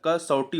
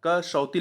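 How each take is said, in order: First: कसौटी ending in a retroflex टी; कसौटी said the right way, with टी; correct spelling. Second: कसौती said the mistaken way, with ती; wrong spelling. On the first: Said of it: "कसौटी होता है". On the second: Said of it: "यहाँ पर कसौती लिखा है". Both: Shown as a demonstration.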